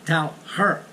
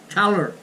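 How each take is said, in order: First: The h sound in her is pronounced. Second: The h sound in her is dropped. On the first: "instead of" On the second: "When you speak in a fast way, you drop the H in her"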